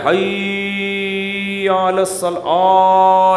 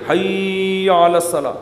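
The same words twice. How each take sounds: First: حی علی الصلاح with حی stretched slow and long; mock people dragging حی; imitating an over-stretched حی علی الصلاح; wrong drawn-out call. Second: حی علی الصلاح with حی kept short and only صلاح drawn out; correct call. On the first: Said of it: "لوگ کیا کریں". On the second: Shown as a demonstration. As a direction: keep حی short and stretch صلاح. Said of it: "حی کو نہیں کھینچ سکتے".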